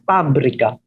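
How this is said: It has a Filipino P for F.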